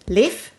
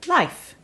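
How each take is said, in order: First: The vowel sounds like the one in safe. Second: The vowel sounds like the one in life. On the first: This is the usual form in western Scandinavia. "in Sweden, Finland, and the more western parts of Scandinavia, this name is pronounced Leif, as in sort of like in the same pronunciation of safe" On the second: This is the form in some other parts of Scandinavia. "in some parts of Scandinavia, this name is pronounced Life"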